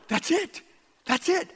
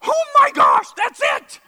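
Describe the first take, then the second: First: High but held-in exclamation; contained, high-pitched thrill of discovery; retold inner excitement. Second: Very high, loud shout of revelation; retold eureka yell; exclaimed outburst. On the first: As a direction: squeak it excitedly without shouting. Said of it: "inside I'm going". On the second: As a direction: shout it out like a sudden discovery. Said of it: "I didn't do it like that".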